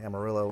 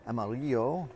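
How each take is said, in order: First: The word is pronounced the English way. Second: The word is pronounced the Spanish way. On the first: This is how local people say it. "folks down here say Amarillo" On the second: This is the original meaning, yellow. "it's actually amarillo, the Spanish for yellow"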